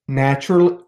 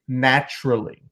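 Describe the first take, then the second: First: The word is said at a normal pace. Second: The word is said slowly and drawn out.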